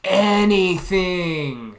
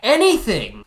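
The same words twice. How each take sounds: First: "Anything" stretched very slowly; drawn-out plea. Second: "Anything" loud and high, falling; emphatic. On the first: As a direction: drag "Anything" out long and slow. Repeats the wish, stretched out. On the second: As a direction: punch out "Anything" briskly. Emphatic wish, said twice. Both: Real, not acted.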